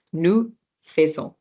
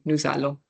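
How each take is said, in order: First: "Nous faisons" with "Nous" ending on the vowel; silent S. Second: "nous allons" linked with a Z, as "nou-zallons"; liaison. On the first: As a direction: drop the S of "Nous" before "faisons". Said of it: "this one is not pronounced". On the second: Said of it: "this is a consonant and this is a vowel". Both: Shown as a demonstration.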